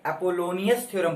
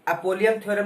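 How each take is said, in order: First: The name is said with four syllables, ending -onius. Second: The name is said with three syllables, ending -ium. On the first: The speaker calls it right. "बोला जाता है" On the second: The speaker calls it wrong. "नहीं बोला जाता है"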